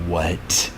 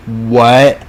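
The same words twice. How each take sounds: First: Soft, breathed "What?" under the breath; quiet stunned what. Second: "What?" higher and louder, rising sharply; loud incredulous what. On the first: The world hearing the news, quietly stunned. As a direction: let "What?" drop quietly in disbelief. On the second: Narrator echoing the world's shock, loud rising disbelief. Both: Retold or imitated. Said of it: "the world is like".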